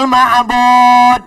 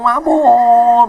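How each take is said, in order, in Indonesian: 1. Kata ini diucapkan dengan jelas dan hati-hati. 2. Kata ini diucapkan tidak jelas dan terdengar samar. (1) "Padahal itu lafaznya bagus" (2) "bacaannya kadang saya dengarlah tuh nggak jelas"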